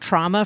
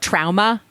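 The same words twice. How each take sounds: First: The word is said in the usual way. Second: The word is said in an imitated pronunciation.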